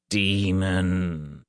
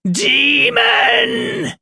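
First: Stern, drawn-out summons; low, stern. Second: Very high, loud scream of wrath; wrathful shriek. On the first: Reverend addresses the demon, low and stern. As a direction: call it out low and grave. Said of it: "called in a low, stern voice". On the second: Reverend glares at the boys, shrieking with wrath. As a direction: shriek it in fury, stretched out. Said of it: "he shrieked, his voice filled with wrath". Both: A narrator's reading.

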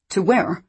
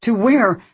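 First: "To where?" asked anxiously, a touch louder; "To where?" pleading but still held back; rising desperation. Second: "To where?" high and loud, desperate; "To where?" pushed up into a desperate cry; increasing desperation. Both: A narrator's reading. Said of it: "Alice asked with increasing desperation".

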